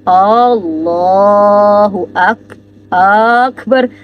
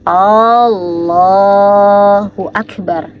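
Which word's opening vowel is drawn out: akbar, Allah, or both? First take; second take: both; Allah. First: The opening vowels of both words are drawn out. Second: The opening vowel of Allah is drawn out long. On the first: "atau dua-duanya yang panjang" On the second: "panjangan a dari kalimat Allah di sini itu tidak diperbolehkan"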